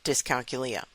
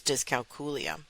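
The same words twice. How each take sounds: First: "dyscalculia" with a quick "kyuh" in the middle; common pronunciation. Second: "dyscalculia" with a "KOO" in the middle; Latin-style pronunciation. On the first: Host showing how most people say it, "dyscalculia" as dis-kal-kyuh-LEE-uh. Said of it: "I typically hear it pronounced". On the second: Host showing how psychologists say it, "dyscalculia" as dis-kal-KOO-lee-uh. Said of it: "pronounce the word as". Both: Shown as a demonstration.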